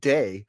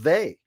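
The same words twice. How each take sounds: First: The word starts with a D sound. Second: The word starts with a TH sound. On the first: "he say they instead of they" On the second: "pronouncing the T H"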